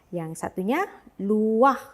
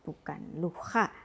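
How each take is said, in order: First: The a vowel comes before the final h. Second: The a vowel comes after the final h. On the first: The speaker calls it right. "luah, ya, bukan luha" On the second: The speaker calls it wrong.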